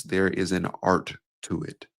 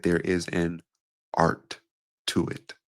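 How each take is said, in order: First: A touch slower, building weight; slow first take. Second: Slow, with pauses between words. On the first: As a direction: lay it down calmly, unhurried. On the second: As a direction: drop the pace and let each word sit. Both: Shown as a demonstration. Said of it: "Just like I did there, I just slowed down".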